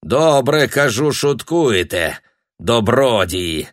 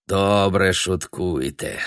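First: Put-on louder, Ukrainian-accented jeer; raised voice. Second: Slow, muttered Ukrainian-flavoured speech; Ukrainian-accented grumble. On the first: Splashed passer-by jeers louder at Tanya, Ukrainian accent. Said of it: "и повысил голос". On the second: Splashed passer-by grumbles at Tanya in Ukrainian accent. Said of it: "сказал он". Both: A narrator's reading.

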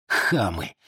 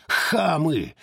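First: Low scornful mutter of хамы; muttered insult. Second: Shouted insult. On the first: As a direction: spit хамы low and under the breath. Muttered insult before shouting it. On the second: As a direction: scream хамы at him. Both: Acted.

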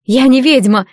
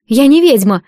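First: Mild shout of denial; indignant outcry, moderately forceful; narrated scream. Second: Understated tearful denial; raised, plaintive cry of denial; through tears. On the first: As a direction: cry out the denial, slightly raised. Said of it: "закричала Агнеса". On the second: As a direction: protest as if close to tears. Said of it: "повторила сквозь слёзы девушка". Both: A narrator's reading.

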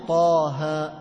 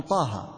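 First: طه sung slowly, each letter stretched two counts; drawn-out Taha. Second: طه said quick and soft with no stretched vowels; clipped Taha. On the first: Teacher to students, chanting the letters with their madd. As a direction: chant طه with the held vowels. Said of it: "بعضهم ما يقول طه". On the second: Teacher to students, mimicking reciters who skip the madd. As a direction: swallow the vowels of طه short. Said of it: "يقول طه". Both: Shown as a demonstration.

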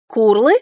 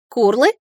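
First: Loud dragon call, a mild roar; louder roared question. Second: Dragon mother's coo, a little raised; cooed creature call. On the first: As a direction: bellow it as a questioning creature cry. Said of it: "снова взревела драконица". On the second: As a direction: coo it with a rising lilt. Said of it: "проворковал этот огромный крылатый динозавр". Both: A narrator's reading.

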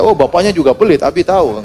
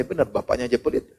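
First: Said in the usual way. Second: Muttered under the breath as a private thought; quiet inner thought. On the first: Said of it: "saya nggak bilang sama anak saya". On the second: Retold or imitated. Preacher thinking about his son's stingy friend, quietly to himself. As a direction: keep it soft, thinking it to yourself. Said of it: "Dalam hati saya".

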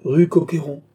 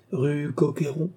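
First: "Rue Coqueyron" stated firmly, falling at the end; unruffled confirmation, louder, with "Coqueyron" closed downward; phlegmatic repeat. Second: "Coqueyron" lifted high as a question; puzzled upward lift on "Coqueyron". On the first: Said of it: "répéta flegmatiquement Jean". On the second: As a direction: query "Rue Coqueyron", pitch rising at the end. A questioning repeat of the street name. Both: A narrator's reading.

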